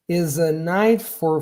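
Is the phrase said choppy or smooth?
smooth. The words flow together smoothly without breaks. The speaker calls it right. "this doesn't sound choppy"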